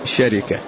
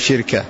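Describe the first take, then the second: First: Vowels follow the pattern of the word 'arafa. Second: Vowels follow the pattern of the word hikma. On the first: "إذا كان بوزن عرفة تقول شركة" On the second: "وإذا كانت بوزن حكمة تقول شركة"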